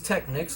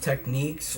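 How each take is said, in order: First: The name is said like 'technics'. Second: The name is said like 'techniques'. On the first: This is the speaker's habitual way. "I pronounce Technics" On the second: This is how the brand intends it. "where it's supposed to be pronounced techniques"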